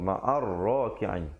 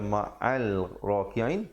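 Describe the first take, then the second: First: No l sound; it runs into a doubled r. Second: A clear l sound is heard before raki'in. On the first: The speaker calls it right. "lamnya tidak dibunyikan" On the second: The speaker calls it wrong. "jangan baca ma'al raki'in"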